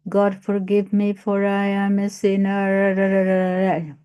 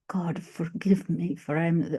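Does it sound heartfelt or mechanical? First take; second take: mechanical; heartfelt. First: It is said flatly, without feeling. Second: It is said with sincere, heartfelt feeling.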